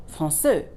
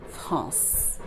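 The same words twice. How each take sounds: First: Français as "frahn-SUH", ending in rounded "euh"; wrongly voiced final E. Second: France as one soft nasal syllable ending in S; silent final E. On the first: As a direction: end français on a French "euh". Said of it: "not français". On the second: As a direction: let France end on a soft hiss of S. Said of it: "what we're really reading is the C". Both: Shown as a demonstration.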